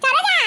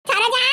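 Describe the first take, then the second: First: Much higher, louder call of the name. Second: Calling out. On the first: No answer yet, the visitor calls Saroja again, loud and high. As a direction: shout the name when nobody answered. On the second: Visitor at the door calls for Saroja, calling out. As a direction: call her name from outside the house. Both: Acted.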